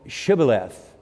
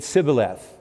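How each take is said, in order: First: The word begins with an sh sound. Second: The word begins with a plain s sound. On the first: The speaker is from the group that says it natively. The speaker calls it right. "No, it's Shibboleth" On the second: The speaker is from a group that cannot say this sound. The speaker calls it wrong. "they couldn't pronounce the SHs, so they said Sibboleth"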